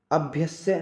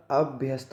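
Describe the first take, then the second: First: अभ्यस्य slowly, ending "-sye" with no t; wrong pronunciation. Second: अभ्यस्त ending in a clear st; correct pronunciation. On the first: Teacher shows the mistake, अभ्यस्य slow without t. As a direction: end अभ्यस्य on a drawn s-vowel. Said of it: "नहीं होता". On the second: Teacher gives the right form, अभ्यस्त with final st. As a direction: close अभ्यस्त with s plus t. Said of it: "होता है". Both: Shown as a demonstration.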